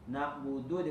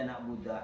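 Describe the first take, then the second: First: The word ends with an u vowel. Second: The word ends with an a vowel. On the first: The speaker calls it right. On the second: The speaker calls it wrong.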